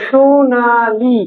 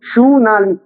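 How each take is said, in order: First: Sonali stretched very slowly, syllable by syllable; drawn-out word. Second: Said in the usual way. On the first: Shown as a demonstration. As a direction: hold each vowel of Sonali long. Teacher sounds out example word. (সোনালি টেনে টেনে ধীরে)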